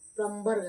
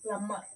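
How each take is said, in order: First: A 'b' sound is pronounced after the 'm'. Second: No 'b' sound is pronounced after the 'm'. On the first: The speaker calls it wrong. "ప్లంబర్ కాదు" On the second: The speaker calls it right. "ఇక్కడ బి silent letter"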